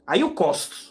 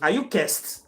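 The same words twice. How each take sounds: First: It is said in the speaker's usual accent. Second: It is said in a Ghanaian accent.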